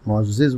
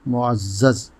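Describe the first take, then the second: First: The vowel before the final z is 'i'. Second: The vowel before the final z is 'a'. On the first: The speaker calls it wrong. "आम तौर से मुअज़्ज़िज़ बोला जाता है" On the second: The speaker calls it right. "यही दुरुस्त है।"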